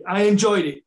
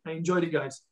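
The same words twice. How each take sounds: First: Higher and louder, punching enjoyed; emphatic burst. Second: Said in the usual way. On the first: Real, not acted. Ex-footballer telling podcast hosts he loved punditry, emphatic. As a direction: blurt it out with real enthusiasm. Ex-player stressing his TV enjoyment.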